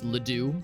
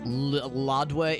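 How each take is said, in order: First: The name is pronounced with plain American sounds. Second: The name is pronounced with French sounds. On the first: The speaker calls it right. "it's Ledoux" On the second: The speaker calls it wrong. "it's not Ladoué"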